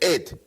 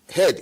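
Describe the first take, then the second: First: The word starts directly with a vowel. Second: The word starts with a clear h sound. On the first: The speaker calls it wrong. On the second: The speaker calls it right.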